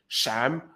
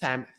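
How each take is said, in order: First: The first sound is like sh. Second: The first sound is like th. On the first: "palatization of S, which means it sounds like a sh more than an S" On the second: "Or it might be a dentalized"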